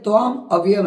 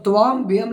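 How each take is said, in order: First: A separate a vowel begins the second word. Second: The m runs straight into the next word. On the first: The speaker calls it right. "उसको कह देंगे" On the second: The speaker calls it wrong. "लिखा है"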